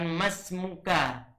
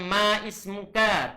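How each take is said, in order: First: The words run together with no glottal stop. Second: A glottal stop is pronounced before 'ismuka'. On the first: The speaker calls it right. "tapi kita katakan masmuka" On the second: The speaker calls it wrong. "Tidak boleh dikatakan ma ismuka"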